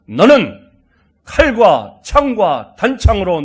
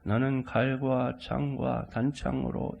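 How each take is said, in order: First: It is read in a bold, young voice. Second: It is read in an old, weak voice. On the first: The speaker calls it right. "당차게" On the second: The speaker calls it wrong. "이렇게 읽으면 안 되고요"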